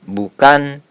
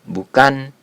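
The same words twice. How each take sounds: No difference in how they are said.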